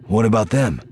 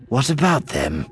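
First: Higher, louder "What about them?", falling at the end; concerned question. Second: "What about them?" with ABOUT lifted high; question thrown back. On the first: Asks partner about the children. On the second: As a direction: echo "What about them?" in another character's voice, stressing "about". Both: A narrator's reading.

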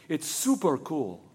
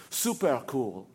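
First: Slow, laid-back cool with a laugh; super cool. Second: Low, laid-back cool with a laugh; super cool. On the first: Girl tells Sam about the cannonball, slow and cool. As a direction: drawl it out coolly, amused. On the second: Sam remembers how the girl said it, low and cool. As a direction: say it like the coolest thing ever. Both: A narrator's reading. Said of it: "as cool as the way she had said".

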